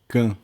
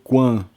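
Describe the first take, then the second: First: It begins with a plain k sound. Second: It begins with a kw sound. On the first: The speaker calls it right. "Sempre vai ser can" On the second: The speaker calls it wrong. "não vai ser quan"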